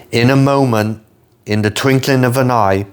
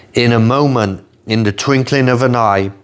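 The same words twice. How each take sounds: No difference in how they are said.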